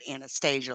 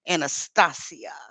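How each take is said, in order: First: The name is said the American English way. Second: The name is said the Ukrainian way. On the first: The speaker calls it wrong. "they don't say it Anastasia like we would" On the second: The speaker calls it right. "I think they say it more like Anastasia"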